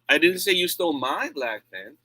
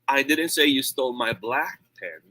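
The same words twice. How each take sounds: First: The stress falls on the word my. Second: The stress falls on the word black. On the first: Someone else's pen was taken. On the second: A pen of another color was taken. "It means maybe yung red ang ninakaw or kinuha"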